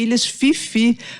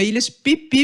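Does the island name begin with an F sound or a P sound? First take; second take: F sound; P sound. First: The name is said with F sounds. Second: The name is said with P sounds. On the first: The speaker calls it wrong. "Eu sempre falei Ilhas Fifi, mas não é, isso é um erro terrível" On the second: The speaker calls it right. "Ilhas Pipi mesmo"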